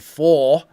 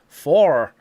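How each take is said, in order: First: It is said without a final r. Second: It is said with a pronounced final r. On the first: "in British, obviously, we say four" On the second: "for Americans is not a linking sound because they will say four"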